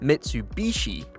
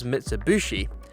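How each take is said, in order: First: It is said the standard non-British way. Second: It is said the common British way. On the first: "rather than" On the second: "a lot of us in the U K refer to this brand of car as"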